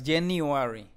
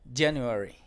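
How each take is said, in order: First: The u vowel is full and strong. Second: The u vowel is very soft. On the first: The speaker calls it wrong. "No digas January" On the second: The speaker calls it right. "La U debe sonar U, pero muy suave"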